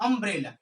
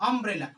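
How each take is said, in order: The two takes are said the same way.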